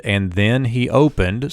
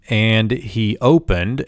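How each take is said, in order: First: Said in the usual way. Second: Slow reading. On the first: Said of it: "subject predicate together". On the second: Shown as a demonstration. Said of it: "we move into the next Vav consecutive clause".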